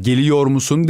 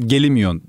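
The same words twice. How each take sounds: First: Said in the usual way. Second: Fluid Aegean "gelimiyon", run together as one word; flowing regional Aegean "gelimiyon"; Aegean dialect. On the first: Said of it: "geliyor musun değil". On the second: Shown as a demonstration. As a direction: say "gelimiyon" the Aegean way, endings merged. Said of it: "Daha akıcı aslında".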